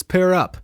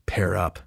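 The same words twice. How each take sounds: First: "Pair up." called out higher and louder; coach's barked order. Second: Said in the usual way. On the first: Retold or imitated. Comic retelling how the fake teacher barked "Pair up." at the class. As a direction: bark "Pair up." like a coach calling the whole room. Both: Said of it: "the first thing they say is".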